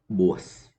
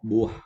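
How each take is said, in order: First: The word ends with a hissing s sound. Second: The word ends with a soft h sound. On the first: The speaker calls it wrong. "But don't say buas. We don't have that sound" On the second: The speaker calls it right. "So you say instead"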